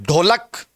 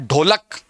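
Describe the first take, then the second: No difference in how they are said.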